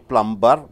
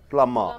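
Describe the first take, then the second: First: The B sound is pronounced in the middle. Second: The B sound is silent in the middle. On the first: The speaker calls it wrong. "You don't say plumber" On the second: The speaker calls it right. "This B sound is silence"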